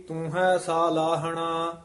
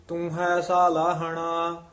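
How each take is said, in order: No difference in how they are said.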